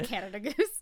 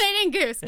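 First: Said in the usual way. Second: "Canadian goose" higher and louder, questioning; puzzled repeat. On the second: Shown as a demonstration. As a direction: echo "Canadian goose" as if testing how it sounds.

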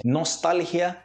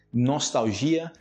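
First: "Nostalgia" as nos-TAL-hya; higher "Nostalgia", stress on TAL; Spanish. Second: "nostalgia" as nos-tau-ZHI-a; slow "nostalgia", stress on GI; Portuguese. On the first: Teacher reading Spanish first, "Nostalgia" stressed on TAL. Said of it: "Em espanhol primeiro". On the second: Teacher answering in Portuguese, "nostalgia" stressed on GI. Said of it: "em português". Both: Shown as a demonstration.

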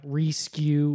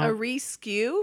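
First: Reskew, the first vowel stretched to ee; reskew echoed. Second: Mock the word reskew as ree-skew; reskew mispronounced. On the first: Retold or imitated. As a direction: repeat reskew with an ee sound. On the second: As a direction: say reskew with a long ee vowel, rees-kew. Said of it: "A reskew".

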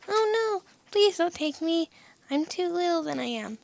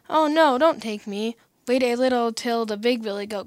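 First: High-pitched tiny billy goat; small voice. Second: Louder, lightly voiced middle goat; not such a small voice. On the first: Tiniest billy goat answering the troll under the bridge, small high voice. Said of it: "with such a small voice". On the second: Second billy goat pleading with the troll, louder, not so small. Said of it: "who hadn't such a small voice". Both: A narrator's reading.

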